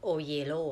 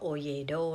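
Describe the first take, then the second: First: The last syllable starts with an l sound. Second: The last syllable starts with a d sound. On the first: This is how a Spanish speaker says it. "เขาจะออกเสียงโอเยโลอ่ะ" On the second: This is how Westerners say it. "ถ้าฝรั่งก็โอเยโดนะคะ"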